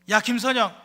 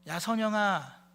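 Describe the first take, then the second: First: It is said in an angry, threatening tone. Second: It is said in a calm, everyday tone.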